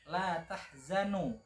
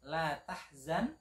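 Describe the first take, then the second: First: The last word ends with an added u vowel. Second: The last word ends on a bare n sound. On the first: The speaker calls it wrong. "dibaca la tahzanu maka tentu ini artinya akan berbeda" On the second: The speaker calls it right. "yang seharusnya itu i'rabnya i'rab jazm"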